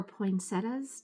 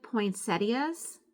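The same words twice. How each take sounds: First: "poinsettias" shortened to poin-SET-uhs; alternative regional pronunciation. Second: "Poinsettias" with the ending as ee-uhs; regional pronunciation. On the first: Vlogger allowing for regional speech, "poinsettias" as poin-SET-uhs. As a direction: say "poinsettias" in three syllables, no ee before the ending. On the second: Vlogger allowing for regional speech, "Poinsettias" as poin-SET-ee-uhs. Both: Shown as a demonstration. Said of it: "depending on where you live".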